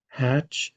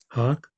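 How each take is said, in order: First: The name ends with a 'ch' sound. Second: The name ends with a 'k' sound. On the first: The speaker calls it wrong. "is that how that's pronounced?" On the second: The speaker calls it right. "it's Hawk"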